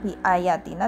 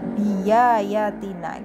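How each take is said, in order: First: The hamza is pronounced as a glottal stop. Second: The hamza is replaced by a y sound. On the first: The speaker calls it wrong. "Dibacanya bukan bi ayatina" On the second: The speaker calls it right. "hamzahnya menjadi ya"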